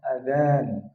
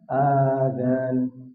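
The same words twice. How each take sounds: First: The first vowel is short; only the second is long. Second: The first vowel is long, and so is the second. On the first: It means the call to prayer. The speaker calls it right. "Adzan dengan memanjangkan huruf zalnya" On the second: It means ears. The speaker calls it wrong. "Kalau yang dibaca panjang alif dan zalnya itu artinya adalah telinga"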